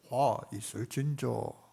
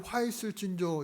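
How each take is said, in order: First: It is said in a deep, lowered voice. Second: It is said in an ordinary voice.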